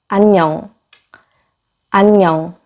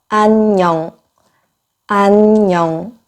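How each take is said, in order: Both takes have the same delivery.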